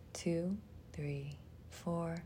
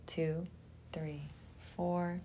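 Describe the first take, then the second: No difference in how they are said.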